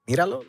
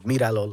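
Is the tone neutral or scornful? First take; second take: scornful; neutral. First: It is said in a scornful, dismissive tone. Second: It is said in a plain, neutral tone. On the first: Who do you think you are? "like, this fucking thing, who's you are?" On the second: Look at him. "like, look at him"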